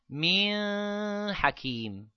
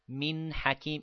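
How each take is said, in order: First: The n has a long, heavy nasal sound. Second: The n has only a light nasal sound. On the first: The speaker calls it wrong. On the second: The speaker calls it right.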